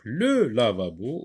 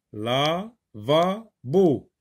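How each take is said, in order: First: Said in the usual way. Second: "lavabo" very slowly as la, va, bo; "lavabo" in three drawn-out, spaced beats; syllable by syllable. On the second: Shown as a demonstration. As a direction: stretch and separate each syllable of "lavabo". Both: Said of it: "les trois syllabes".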